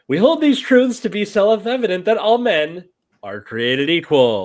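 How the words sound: The pitch goes up and then down. "This is her teacher voice. ... she like goes up and then down"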